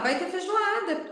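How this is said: It is said in an excited, delighted tone. The speaker loves the dish. "oba, vai ter feijoada, que delícia, eu adoro feijoada"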